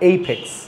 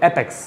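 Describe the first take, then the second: First: The first vowel is like the 'ay' in day. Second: The first vowel is like the 'a' in cat. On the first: The speaker calls it right. "এটা উচ্চারণ হচ্ছে এইপেক্স" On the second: The speaker calls it wrong. "No অ্যাপেক্স না"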